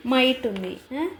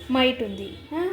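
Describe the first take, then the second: No difference in how they are said.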